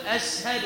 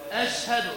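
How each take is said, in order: First: أشهد with the final dal pushed too hard; wrong exaggerated dal. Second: أشهد with a light plain final dal; correct dal. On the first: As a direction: overdo the vowel on the dal of أشهد. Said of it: "فلا تقل". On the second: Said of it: "الصواب". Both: Shown as a demonstration.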